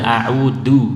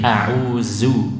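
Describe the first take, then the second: First: The middle consonant is a stopped d sound. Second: The middle consonant is a buzzing z sound. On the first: "Atau dal" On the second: "Misalnya zai"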